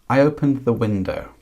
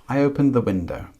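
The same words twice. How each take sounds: Both takes have the same delivery.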